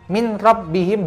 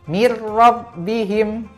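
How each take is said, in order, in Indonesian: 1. Bunyi n dibaca terpisah sebelum r. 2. Bunyi n menyatu menjadi r yang ditasydid. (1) "tidak dibaca min robbihim begitu saja" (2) "harus masuk ke huruf ro"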